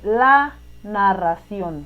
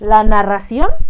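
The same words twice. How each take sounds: First: It is said in a plain, level statement tune. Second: It is said with a questioning, rising tune. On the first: Someone is simply stating something. "no están preguntando ni exclamando" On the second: Someone is asking something. "como preguntando"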